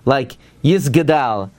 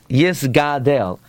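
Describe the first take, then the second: First: The g is followed directly by d, no vowel. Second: The g is followed by a full a vowel. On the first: The speaker calls it wrong. "it should not sound like the gimel and the tuf and the gimel is with the shva" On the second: The speaker calls it right. "Ela hagimel bepatach"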